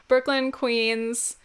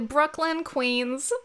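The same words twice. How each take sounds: First: The names are said in the speaker's normal accent. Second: The names are said in a put-on regional accent.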